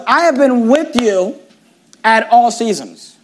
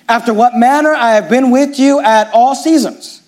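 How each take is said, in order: First: "I have been with you at all seasons" slowed, each word weighted; emphasis on have been with you at all seasons. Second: Said in the usual way. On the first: Shown as a demonstration. Pastor stressing Paul's words to the congregation, slow and weighted. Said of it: "I want you to notice that his emphasis was". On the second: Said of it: "his emphasis was".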